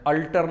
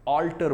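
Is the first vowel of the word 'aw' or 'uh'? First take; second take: uh; aw. First: The first vowel is a short 'uh' sound. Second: The first vowel is an open 'aw' sound. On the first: The speaker calls it wrong. "अल्टर नहीं बोलते हैं" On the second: The speaker calls it right. "ऑल्टर बोलते हैं"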